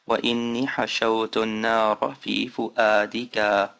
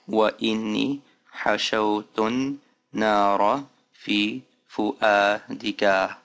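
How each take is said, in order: First: The sentence is said at normal speed. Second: The sentence is said somewhat slowly. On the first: "let me go even faster, at normal speed" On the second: "Let me do it again just a little bit faster"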